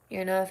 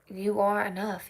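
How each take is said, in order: First: It is said quickly and offhandedly. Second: It is said slowly and earnestly. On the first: It is said without much thought. The speaker calls it wrong. "I think I used to say it as like" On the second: It is meant deeply and truly. The speaker calls it right. "I need to say it with more consideration now"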